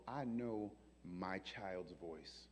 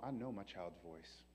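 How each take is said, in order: First: Very slow, soft and low; slow tender God. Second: Soft, lower loving certainty; tender God. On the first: God to the angels, slow soft tenderness. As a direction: draw it out tenderly. God speaking slowly softly. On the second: God answering the angels, soft and tender. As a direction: say it as a loving father. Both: Retold or imitated.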